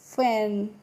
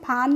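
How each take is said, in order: First: The vowel is 'a' as in cat. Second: The vowel is an open 'aa'. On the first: The speaker calls it right. "क्या पढ़ते हैं फैन" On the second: The speaker calls it wrong. "फान नहीं पढ़ते हैं"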